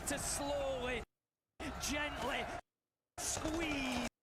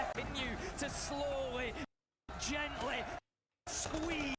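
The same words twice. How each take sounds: First: Slow, drawn-out commentary; caster impression. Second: Slow, drawn-out commentary; dramatic caster call. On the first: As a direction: draw it out, caster style. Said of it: "I really like that". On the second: Retold or imitated. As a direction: savour each word like a caster. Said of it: "I like that".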